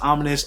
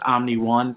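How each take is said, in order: First: The name ends with an 's' sound. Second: The name ends with a separate word 'one'. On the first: The speaker calls it right. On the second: The speaker calls it wrong.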